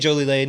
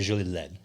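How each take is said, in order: First: The name is said with an English pronunciation. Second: The name is said with a French pronunciation. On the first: The speaker calls it wrong. "we say Jolie Lane. It's anglicized" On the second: The speaker calls it right. "if you were saying it correctly, you say Jolie Led"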